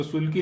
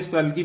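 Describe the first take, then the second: First: सुल्की with an 'oo' in the first syllable, 'SOOL-kee'; mistaken pronunciation. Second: सल्की with a short 'uh' in the first syllable, 'SUL-kee'; correct pronunciation. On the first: Teacher warning learners off a misreading, सुल्की said with 'oo'. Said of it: "इसको सुल्की नहीं पढ़ेगा कोई". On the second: Teacher showing learners how the word is read, सल्की said with short 'uh'. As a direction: say सल्की as 'sull-kee', not 'sool-kee'. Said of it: "देखो ये सल्की पढ़ा जाएगा". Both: Shown as a demonstration.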